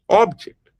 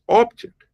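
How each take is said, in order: First: The stress is on the first syllable. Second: The stress is on the first syllable.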